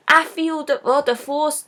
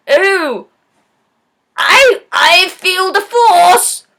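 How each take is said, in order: First: Said in the usual way. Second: Loud, drawn-out mock proclamation; blind guy's catchphrase. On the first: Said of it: "That's his catch line". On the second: Blind guy announcing his catch line, loud slow mock shout. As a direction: belt it out slowly as a hammed-up forced line. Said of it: "he's like".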